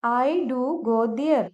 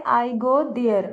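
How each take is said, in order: First: "do" stressed, said slowly and clearly; slow, weigh down on "do" to insist; emphatic do. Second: Said in the usual way. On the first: Shown as a demonstration. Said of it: "बात पर जोर डालकर बोलना चाहें". ("do" पर ज़ोर देकर धीरे बोलें) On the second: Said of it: "normally तो हम इसको ऐसे बोलते हैं".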